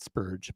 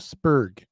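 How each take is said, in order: First: The final g is a soft j sound. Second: The final g is a hard g sound. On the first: The speaker calls it wrong. "not a soft G" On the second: The speaker calls it right. "Hard G"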